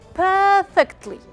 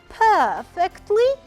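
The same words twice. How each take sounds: First: The pitch rises and then falls. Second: The pitch falls and then rises. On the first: "the rise fall" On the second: "falling and rising"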